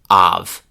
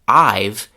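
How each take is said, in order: First: The vowel shifts to ah, heavily reduced. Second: The words merge into one contracted syllable. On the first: "the chewing gum form" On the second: "the contraction"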